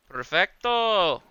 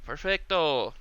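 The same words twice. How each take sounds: First: Perfecto stretched slow and higher, savoured; a slow, savouring Perfecto; drawn-out mock Perfecto. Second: Said in the usual way. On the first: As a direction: Perfecto pulled out long with a flourish.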